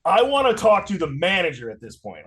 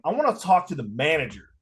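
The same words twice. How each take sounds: First: Louder, higher retold demand; emphatic annoyed complaint; pissed off. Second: Firm, restrained complaint; mildly annoyed demand; retold annoyance. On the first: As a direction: demand the manager, really fed up. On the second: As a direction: ask for the manager with a touch of irritation. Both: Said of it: "Like, I'm pissed".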